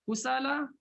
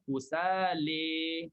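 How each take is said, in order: First: The final vowel is a plain open 'a'. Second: The final vowel is tilted toward an 'e' sound. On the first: "Kusala sama juga" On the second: "Jadi baca imalah kusali"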